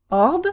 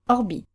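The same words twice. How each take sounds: First: "Orb" held as a single stressed syllable. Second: "orbi" clipped on the first syllable, landing on i; short unstressed R. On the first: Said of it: "one where the R is stressed". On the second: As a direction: pass lightly over the R in "orbi". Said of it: "first syllable in our new position is shorter". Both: Shown as a demonstration.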